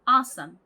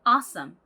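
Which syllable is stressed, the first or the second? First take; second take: first; first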